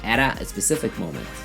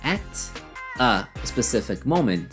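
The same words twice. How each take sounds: First: The T runs straight into the next vowel. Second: The T is kept separate from the next vowel. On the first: "you say" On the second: "instead of saying"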